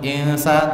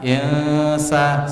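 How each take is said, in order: First: The nasal n sound passes straight into the s. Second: The nasal n sound is held before the s. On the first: The speaker calls it wrong. "Tidak langsung insa" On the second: The speaker calls it right. "tapi ditahan dua harokat, insa, seperti itu"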